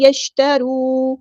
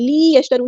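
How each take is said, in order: First: لیشترو with short li, long final roo; short kasra. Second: لیشترو with li wrongly stretched to lee; overlong kasra. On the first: Teacher models it right, short li in لیشترو. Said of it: "اس کو لمبا نہیں کرنا". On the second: Teacher shows the error, long lee in لیشترو. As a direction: drag the first vowel of لیشترو. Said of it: "نہیں". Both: Shown as a demonstration.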